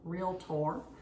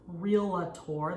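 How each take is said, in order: First: No vowel sounds between the l and t. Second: An extra vowel sounds between the l and t. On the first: The speaker calls it right. "it's R E A L T O R, realtor" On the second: The speaker calls it wrong. "often mispronounced as realtor, there is not an I"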